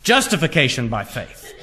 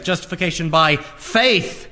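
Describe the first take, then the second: First: JUSTIFICATION hit hard, the rest falling away; stress on JUSTIFICATION. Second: "faith" held back, then hit hard; stress on FAITH. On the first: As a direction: punch the word Justification. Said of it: "emphasize justification". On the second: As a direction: punch the word faith at the end. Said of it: "emphasize the word faith". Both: Shown as a demonstration.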